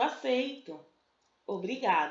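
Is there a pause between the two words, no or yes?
yes. There is a pause between the two words.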